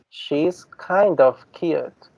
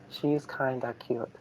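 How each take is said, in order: First: Kind of is said as two full words. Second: Kind of is blended into one word, kinda. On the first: "With the standard use" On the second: "colloquial use"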